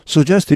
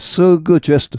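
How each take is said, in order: First: No separate g; the sound runs straight into j. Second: A separate hard g is heard before j. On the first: "그냥 붙여서 suggest 이렇게 발음하는" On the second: "이 G를 따로 분리해서"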